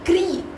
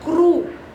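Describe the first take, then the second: First: The r is followed by an ee vowel. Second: The r is followed by an oo vowel. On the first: "So it's not even kri" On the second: "it's not even kru"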